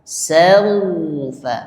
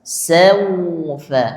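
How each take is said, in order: No difference in how they are said.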